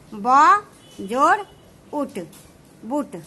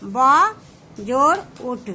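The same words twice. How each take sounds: First: ब जोड़ उठ said slowly, part by part; धीरे धीरे अक्षर जोड़ते हुए; slow spelling out. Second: Said in the usual way. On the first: Shown as a demonstration. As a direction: spell out ब, जोड़, उठ one piece at a time for students. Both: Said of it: "इसको लिखने का तरीका क्या हो गया".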